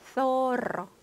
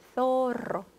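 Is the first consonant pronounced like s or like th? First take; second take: th; th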